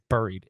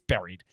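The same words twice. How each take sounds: First: It has a Midwestern-sounding vowel. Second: It has a standard-sounding vowel. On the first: The speaker calls it wrong. "I said buried; Your Midwestern is rubbing off on me" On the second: The speaker calls it right. "it's buried"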